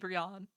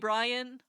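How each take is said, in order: First: The first vowel sounds like 'ee'. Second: The first vowel sounds like 'eye'. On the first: The name keeps its Japanese reading. "still Japanese to be Brian" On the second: The name has been adapted to English. "westernized to be Brian"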